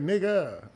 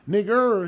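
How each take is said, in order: First: The word ends with an 'ah' sound. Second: The word ends with an 'er' sound. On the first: "turn it to the N I G G A" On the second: "we don't use the E R"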